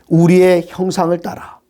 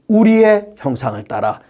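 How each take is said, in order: First: The stress falls on the word after 우리의. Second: The stress falls on the word 우리의. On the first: "제가 우리 뒤에 단어를 강하게 발음했습니다마는" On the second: "여기서 가장 중요한 것은"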